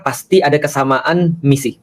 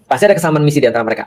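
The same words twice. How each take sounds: First: "kesamaan" stressed, said slowly and firmly; slow emphatic. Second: Fast, light run-through, "ada" lightly stressed; quick repeat. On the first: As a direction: land "kesamaan misi" slowly, word by word. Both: Shown as a demonstration.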